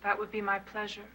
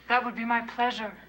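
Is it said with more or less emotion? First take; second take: less; more. First: It is said with little emotion. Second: It is said with strong emotion.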